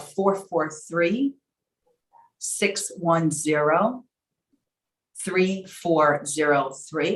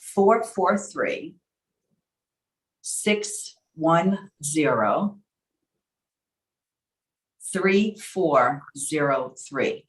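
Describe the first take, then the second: First: The number is read at a normal pace. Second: The number is read slowly.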